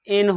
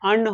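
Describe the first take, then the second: First: The article is said with a full 'en' sound. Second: The article is said with a short 'un' sound. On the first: The following noun is being emphasized. "ए एन का उच्चारण एन होता है" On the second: Normal everyday use of the article. "ए एन का उच्चारण अन होता है"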